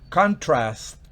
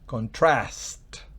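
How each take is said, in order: First: The stress is on the first syllable. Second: The stress is on the last syllable. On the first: It is a noun. "Si es sustantivo" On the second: It is a verb. "si es verbo"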